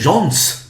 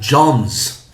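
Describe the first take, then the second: First: The word ends with a hissing s sound. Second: The word ends with a buzzing z sound. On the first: The speaker calls it wrong. "You don't say John's" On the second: The speaker calls it right. "You say John's. ... You use z"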